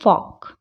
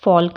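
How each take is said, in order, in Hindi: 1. K से पहले L silent है। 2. K से पहले L बोला जाता है। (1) "क्या पढ़ेंगे, फॉक" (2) "फॉल्क नहीं पढ़ेंगे"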